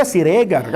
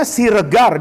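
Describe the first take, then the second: First: "Siregar" with a full, stressed "e" as in Medan; Medan hard E. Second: Said in the usual way. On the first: Shown as a demonstration. Teacher showing how Medan people read it, "Siregar" with stressed full "e". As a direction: hit a clear open "e" in "Siregar". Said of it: "dia baca Siregar ... Ada tekanannya". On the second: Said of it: "kita baca Siregar".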